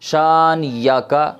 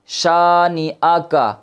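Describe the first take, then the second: First: The middle syllable is pronounced with a 'y' sound. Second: The middle syllable is pronounced with a glottal stop. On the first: The speaker calls it wrong. "बहुत बड़ी गलती लोग करते हैं" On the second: The speaker calls it right. "पढ़ा जाना था"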